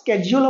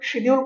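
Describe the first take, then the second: First: The word begins with an 'sk' sound. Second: The word begins with a 'sh' sound. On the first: This is the proper pronunciation. The speaker calls it right. "ইয়াৰ শুদ্ধ উচ্চাৰণ স্কেডিউল হ'ব লাগে" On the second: This is the everyday colloquial way of saying it. The speaker calls it wrong. "আমাৰ চলিত ভাষাত আমি শিডিউল কৈ"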